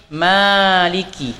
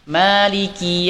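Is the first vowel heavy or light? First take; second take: light; light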